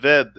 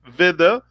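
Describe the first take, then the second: First: The word ends without a final vowel. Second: The word ends with a final 'a' vowel. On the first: The speaker calls it right. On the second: The speaker calls it wrong.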